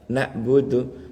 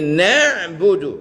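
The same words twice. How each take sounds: First: "Nak budu" slowly, with a glottal hamzah instead of the ain; wrong hamzah reading. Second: "nak budu" higher and firm, with a throaty ain; correct ain reading. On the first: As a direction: show the mistaken "Nak budu", a hamzah stop. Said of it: "merubah ain menjadi hamzah". (bacaan salah "Nak budu" pakai hamzah, pelan) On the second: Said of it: "mesti ini nak budu". (bacaan benar "nak budu" dengan ain yang tegas) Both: Shown as a demonstration.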